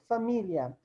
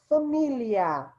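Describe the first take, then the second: First: The final -lia is said as one syllable. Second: The final -lia is split into two syllables. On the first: "como se terminasse em ditongo" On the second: "como se terminasse em ato"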